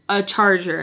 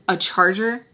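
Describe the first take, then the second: First: "charger" with a falling, settled tune; firm confirmation. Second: "charger" with a rising questioning tune; questioning echo. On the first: Confirming her price to the girls, "charger" falling firmly. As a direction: land "charger" downward as a statement. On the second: Girls questioning her price, "charger" rising in disbelief. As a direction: lift "charger" at the end as a question. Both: Retold or imitated.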